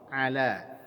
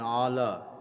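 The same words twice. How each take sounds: First: The word is said with a thin sound. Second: The word is said with a thick sound. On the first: The speaker calls it right. "Ala tipis saja bunyinya" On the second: The speaker calls it wrong. "bukan ala"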